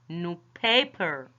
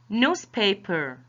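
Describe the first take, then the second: First: The stress falls on the second part, paper. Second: The stress falls on the first part, new. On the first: It describes paper that is new. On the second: It names a printed daily publication.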